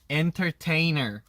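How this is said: The R is said tightly, in a clipped American style.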